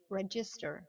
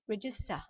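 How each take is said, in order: First: The ending is clearly and fully pronounced. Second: The ending is weak and almost silent.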